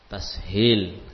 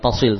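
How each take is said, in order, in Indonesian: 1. Bagian tengahnya s diikuti h. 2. Bagian tengahnya bunyi s biasa. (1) "tapi tashil" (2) "Bukan tasil"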